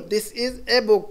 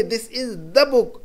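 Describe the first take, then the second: First: "a" said as a clear "ay"; stress on "a". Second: Very slow, "the" set apart; slow right down to show "the" before book; stress on "the". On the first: Teacher translating the indefinite phrase, stressing "a". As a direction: mark the article "a" before book. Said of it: "एन या ए जो लगा रहे हैं". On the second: Teacher switching to the definite article, slowly stressing "the". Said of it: "अब दी जो लगा रहे हैं". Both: Shown as a demonstration.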